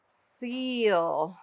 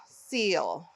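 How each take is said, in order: First: SEAL with a long stretched ee; drawn-out long E. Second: Said in the usual way. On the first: Shown as a demonstration. Teacher shows E saying its name in seal, drawn out. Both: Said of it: "It's saying its name".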